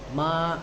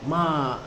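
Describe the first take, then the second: First: The pitch rises from middle to high. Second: The pitch falls sharply from high. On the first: It means older sibling. "nadanya dari tengah ke tinggi" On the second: It means to scold. "nada tinggi petah"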